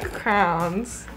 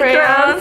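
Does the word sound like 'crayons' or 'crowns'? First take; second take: crowns; crayons. First: The word is said as 'crowns'. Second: The word is said as 'crayons'. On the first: "I say crowns, I say it wrong" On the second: "the crayons"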